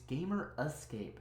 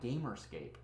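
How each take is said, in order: First: The name has a full separate 'escape' syllable. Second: The name merges into a shorter 'gamerscape'. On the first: The speaker calls it right. "It's Gamer Escape" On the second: The speaker calls it wrong. "not Gamerscape"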